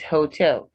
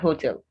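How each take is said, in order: First: The stress is on the second syllable. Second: The stress is on the first syllable. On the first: The speaker calls it right. "Second syllable stressed" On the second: The speaker calls it wrong. "Not hotel"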